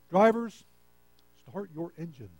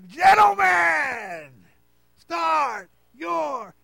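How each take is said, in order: First: It is said flatly, without enthusiasm. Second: It is said with loud enthusiasm.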